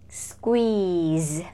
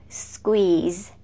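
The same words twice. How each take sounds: Both takes have the same delivery.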